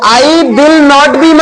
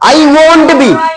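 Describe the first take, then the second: First: The words 'will not' are said in full. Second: The words 'will not' are contracted to 'won't'. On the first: The speaker calls it wrong. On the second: The speaker calls it right.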